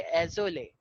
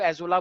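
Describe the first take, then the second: First: एजोले ending in "ley" instead of "la"; affectionate pronunciation. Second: एजोला ending in an open "aa"; others' pronunciation. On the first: Teacher showing students the fond way, affectionate pronunciation. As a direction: say एजोले softly with a final "ay" sound. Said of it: "लेकिन प्यार से बोलना चाहिए एजोले". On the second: Teacher quoting how some people name it, other pronunciation. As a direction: say एजोला with a final "la". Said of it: "वैसे कुछ लोग एजोला बोलते हैं". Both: Shown as a demonstration.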